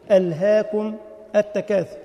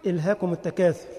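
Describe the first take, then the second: First: "ألهاكم" with a long a, said slowly; the sheikh gently correcting "ألهاكم" with the long alif; correct reading. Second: "إلهاكم" with a short i and no alif; wrong reading. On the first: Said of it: "قال له الشيخ". (الشيخ يصحح: "ألهاكم" بالألف الممدودة ببطء) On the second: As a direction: read "إلهاكم" as ilhakum, dropping the alif. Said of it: "رجل كان يقرأ". (خطأ: "إلهاكم" بكسرة بدون الألف) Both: Retold or imitated.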